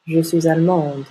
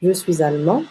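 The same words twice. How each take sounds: First: Allemande closing on a clear d; sounded final consonant. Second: Allemand ending on a nasal vowel; silent final consonant. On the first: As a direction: sound the D ending allemande, falling. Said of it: "on prononce la dernière consonne". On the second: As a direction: let allemand rise, no D sounded. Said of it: "On ajoute un E au féminin". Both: Shown as a demonstration.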